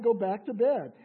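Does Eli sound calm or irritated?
calm. Eli sounds calm and plain.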